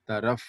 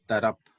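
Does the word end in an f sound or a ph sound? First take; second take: f sound; ph sound. First: The word ends with an f sound. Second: The word ends with an aspirated ph sound. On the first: The speaker calls it right. "now you should pronounce f" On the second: The speaker calls it wrong.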